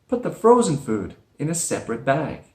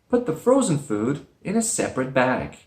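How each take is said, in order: No difference in how they are said.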